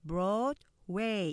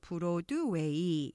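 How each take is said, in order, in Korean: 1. 두 음절로 발음되고, 첫 음절에 강세가 있습니다. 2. 다섯 개의 고른 음절로 발음됩니다. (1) "이렇게 이음절로 표시되죠" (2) "이렇게 오음절로"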